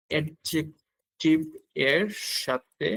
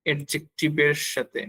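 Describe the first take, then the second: First: Spoken slowly in pieces, in time with writing; slow dictation. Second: Said in the usual way. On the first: Real, not acted. Teacher writing it out for learners, slow dictation. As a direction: draw out each syllable slowly.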